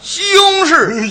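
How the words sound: The syllables are slurred together, Beijing style.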